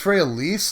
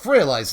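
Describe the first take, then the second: First: The name's ending rhymes with please. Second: The name's ending does not rhyme with please.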